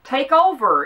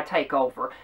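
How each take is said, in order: First: "Take over" punched high and loud, falling at the end; stressed phrase. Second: Said in the usual way. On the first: Real, not acted. Throwing the man's words back at him, "Take over" stressed. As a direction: hit "Take over" hard, defiantly. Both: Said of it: "if that's what you mean by take over".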